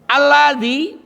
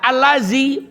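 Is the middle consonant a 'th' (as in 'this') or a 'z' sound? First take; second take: th; z. First: The middle consonant is a soft 'th' sound. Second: The middle consonant is a buzzing 'z' sound. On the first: It means 'which'. The speaker calls it right. "Alladzi maknanya yang" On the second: It means 'sticking'. The speaker calls it wrong. "dibaca allazi nempel"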